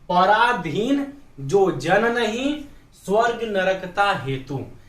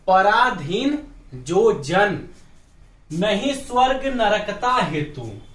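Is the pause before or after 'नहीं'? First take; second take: after; before. First: The pause comes after 'नहीं'. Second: The pause comes before 'नहीं'.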